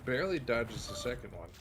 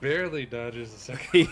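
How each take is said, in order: First: It is said at normal volume. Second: It is said a little louder.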